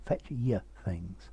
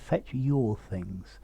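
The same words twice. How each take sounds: First: The word 'your' is reduced to a schwa. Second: The word 'your' has a full vowel. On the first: The speaker calls it wrong. "not fetch your things" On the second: The speaker calls it right. "I would say to fetch your things. it's in keeping with your accent"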